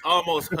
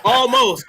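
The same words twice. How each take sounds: First: Said in the usual way. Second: Laughing, pitched much higher. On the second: Real, not acted. S1 laughs at the silent Q joke. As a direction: giggle the word out.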